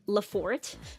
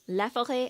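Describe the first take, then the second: First: The name is said with English pronunciation. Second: The name is said with French pronunciation. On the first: The speaker calls it wrong. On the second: The speaker calls it right.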